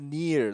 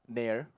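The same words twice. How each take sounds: First: The vowel is a long E sound. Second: The vowel is not a long E sound. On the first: The speaker calls it right. "like the long E" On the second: The speaker calls it wrong. "It's it's not near"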